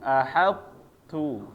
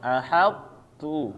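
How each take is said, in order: Both takes have the same delivery.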